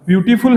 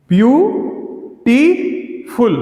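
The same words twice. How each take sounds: First: Said in the usual way. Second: beautiful split slowly as view, टी, फुल; three separate beats in beautiful, view and टी rising, फुल falling; syllable by syllable. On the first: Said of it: "beautiful लिखा हुआ है". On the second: Shown as a demonstration. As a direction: count out beautiful with long gaps after view and टी. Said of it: "इसमें तीन syllable हैं।".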